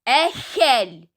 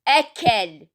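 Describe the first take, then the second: First: The middle consonant is a raspy kh sound. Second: The middle consonant is a hard k sound. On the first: The speaker calls it right. "بل نقول أكل خ خ" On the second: The speaker calls it wrong. "ولا نقول له أكل"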